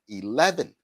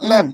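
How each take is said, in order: First: The opening vowel sound is clearly pronounced. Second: The opening vowel sound is left out. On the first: The speaker calls it right. "I said eleven" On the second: The speaker calls it wrong. "by not saying the E"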